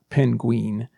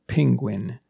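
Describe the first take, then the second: First: It sounds like 'pin' plus 'queen'. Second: It sounds like 'ping' plus 'gwin'. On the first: The speaker calls it wrong. "Not penguin" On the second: The speaker calls it right. "But it's actually ping, penguin"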